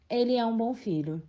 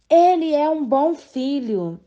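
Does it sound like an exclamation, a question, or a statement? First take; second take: statement; exclamation. First: It is said with a plain, falling statement tune. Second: It is said with an emotional, exclamatory tune. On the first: The speaker is simply declaring a fact. "Expressa uma declaração" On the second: The speaker is expressing emotion. "Expressa emoção"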